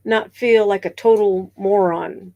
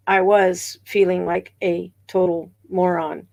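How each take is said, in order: First: Said in the usual way. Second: "was" stressed to admit it really happened. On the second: Real, not acted. Streamer owning up to viewers, stress on "was". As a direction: lean on "was", then let the pitch fall. Confirms the feeling just denied.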